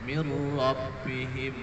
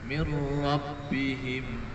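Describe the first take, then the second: Both takes have the same delivery.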